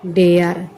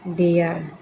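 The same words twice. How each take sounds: First: Much louder, punched repeat of dare; loud emphatic answer. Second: Said in the usual way. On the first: Shown as a demonstration. Teacher repeating the word for pupils after asking, loud and emphatic. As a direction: drill dare home for the class. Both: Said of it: "क्या है?".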